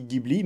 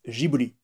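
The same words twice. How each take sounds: First: The name is said with Italian pronunciation. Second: The name is said with Japanese pronunciation. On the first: "en italien ça, se ça se dit Ghibli" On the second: "les japonais ils disent Ghibli"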